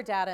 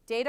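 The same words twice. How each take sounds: First: "data" with a short A, as DAT-uh; DAT-a pronunciation. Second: "Data" with a long A, as DAY-ta; DAY-ta pronunciation. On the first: Speaker asks about Canada, short-A "data". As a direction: say "data" with the vowel of cat. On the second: Speaker asks about Canada, long-A "Data". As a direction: say "Data" like day plus tuh. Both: Shown as a demonstration.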